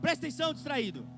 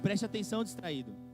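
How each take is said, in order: First: It is said in a commanding prophet's voice. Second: It is said gently and lovingly.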